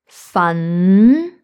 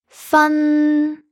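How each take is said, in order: First: The pitch starts mid and rises. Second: The pitch stays high and level. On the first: "the second tone" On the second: "the first tone"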